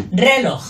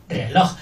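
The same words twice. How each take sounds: First: "Reloj" with RE high, long and loud; stress on first syllable. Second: "Reloj" with low RE and strong LOJ; stress on last syllable. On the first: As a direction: punch RE in "Reloj", drop LOJ. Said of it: "no la primera". ("Reloj" con RE fuerte) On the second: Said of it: "Fuerte la última". ("Reloj" con LOJ fuerte) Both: Shown as a demonstration.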